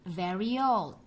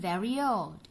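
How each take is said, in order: The two takes are said the same way.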